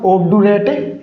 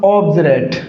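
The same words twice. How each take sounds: First: ऑब्डुरेट with a hard "du" in the middle; mispronounced obdurate. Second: ऑब्जरेट with a "j" in place of d; corrected pronunciation. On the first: Teacher rejecting this reading for students, ऑब्डुरेट with hard "du". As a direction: say ऑब्डुरेट as "ob-du-rate", plain d. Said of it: "ऑब्डुरेट नहीं होगा". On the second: Teacher giving students the corrected reading, ऑब्जरेट with a "j" sound. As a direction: say ऑब्जरेट as "ob-je-rate". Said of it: "इसका उच्चारण जय होगा". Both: Shown as a demonstration.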